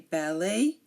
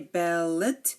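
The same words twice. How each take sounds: First: The final T sound is silent. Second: The final T sound is pronounced. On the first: The speaker calls it right. "We say" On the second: The speaker calls it wrong. "We do not say"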